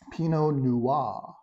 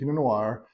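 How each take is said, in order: First: The R at the end is silent. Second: The R at the end is pronounced. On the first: The speaker calls it right. "You don't pronounce the R at the end. So think of N U W A H" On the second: The speaker calls it wrong. "pronouncing the long R. Uh, you don't, that's incorrect"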